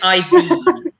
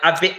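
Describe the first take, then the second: First: The vowel in 'been' is long, like 'bean'. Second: The vowel in 'been' is short, like 'bin'. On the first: The speaker calls it wrong. "we don't say I've been" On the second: The speaker calls it right. "you make it sound like "bin.""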